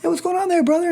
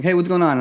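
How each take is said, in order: First: High, bright, oversold hello; slick salesman greeting. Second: Said in the usual way. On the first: Retold or imitated. Evangelist playing salesman to a stranger, high oversold greeting. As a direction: greet him like a smooth salesman working a mark. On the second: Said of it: "And I'm like, putting him in".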